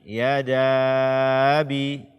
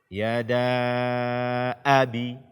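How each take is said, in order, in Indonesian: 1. Hamzah sebelum abi dihilangkan. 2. Ada hamzah yang jelas sebelum abi. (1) "Jangan sampai kita tashilkan atau kita hilangkan dia" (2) "Di sini adalah hamzah fathah dengan jelas"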